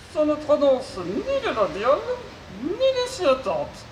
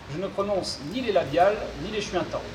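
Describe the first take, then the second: First: Mangle the consonants like a glitchy robot. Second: Said in the usual way. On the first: Acted. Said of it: "souffre d'une pathologie vocale". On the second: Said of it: "je serai son interprète".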